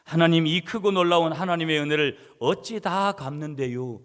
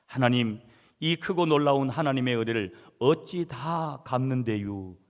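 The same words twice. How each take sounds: First: Put-on louder Chungcheong accent, pleading 갚는데요 with a falling end; imitating a Chungcheong man's fervent prayer; Chungcheong dialect prayer. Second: Imitating a Chungcheong dialect prayer, drawn-out 갚는데요 ending; lightly voiced Chungcheong accent, earnest prayer. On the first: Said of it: "충청도 사람이니까". (간절하게 흉내 낸 충청도 사투리 기도) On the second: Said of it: "충청도 사투리입니다, 여러분". (가볍게 흉내 낸 충청도 사투리 기도)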